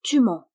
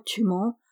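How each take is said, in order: First: A sharp, louder voice from under the bridge; loud mysterious voice, cutting in; ghostly accusation. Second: Said in the usual way. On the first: A narrator's reading. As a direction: accuse him distinctly from the dark. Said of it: "prononça distinctement ces deux mots". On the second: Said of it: "la voix d'une décédée qui ... dit".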